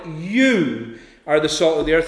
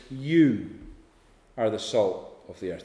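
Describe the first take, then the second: First: "You" weighted firmly at the start; stress on YOU. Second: Said in the usual way. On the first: Shown as a demonstration. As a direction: lean on the first word "You". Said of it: "The first word is emphatic". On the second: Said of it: "The emphasis ... is on the you".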